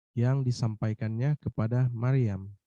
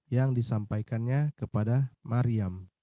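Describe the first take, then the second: The two takes are said the same way.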